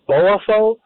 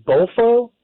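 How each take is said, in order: First: "Boafo" said slowly and carefully as three syllables, Bo-a-fo; slowly carefully fix "Boafo" as Bo-a-fo; corrected name. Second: "Bofo" said as two quick syllables, pitched high; mispronounced name. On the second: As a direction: blurt "Bofo" high and unsure before correcting. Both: Real, not acted. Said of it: "Bo-, Boafo".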